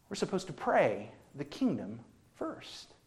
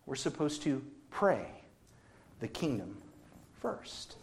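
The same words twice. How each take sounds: First: Said in the usual way. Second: Pauses between pray, the kingdom and first; dramatic pauses. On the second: Shown as a demonstration. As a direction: lay it down word by word, dropping to a whisper on first.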